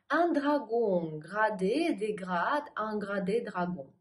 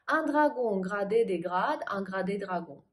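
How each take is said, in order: First: The phrase is said slowly, word by word. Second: The phrase is said quickly without breaks. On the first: "Медленно" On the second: "Быстро"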